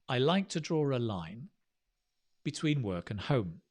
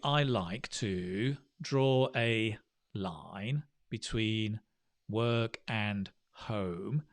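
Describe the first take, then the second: First: It is split in two, pausing after 'line'. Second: Every word gets an even beat, without grouping. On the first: The speaker calls it right. "If we go chunking" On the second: The speaker calls it wrong. "which is da da da da da da da da"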